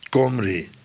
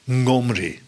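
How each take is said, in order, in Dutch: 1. De naam begint met een k-klank. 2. De naam begint met een ng-achtige klank. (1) "Maar het wordt al gauw een K" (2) "Men zegt dat het onze NG-klank is"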